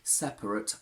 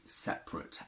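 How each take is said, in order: First: A short schwa is heard after the p. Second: The schwa after the p is dropped. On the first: The speaker calls it wrong. "I would never say separate" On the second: The speaker calls it right. "I say separate, and that's what most people actually say"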